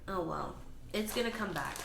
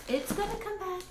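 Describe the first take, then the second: First: Said in the usual way. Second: Much higher sing-song reassurance; coaxing. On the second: Real, not acted. Vlogger reassuring her pathetic plant, higher coaxing tone. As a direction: coax the plant like a pet.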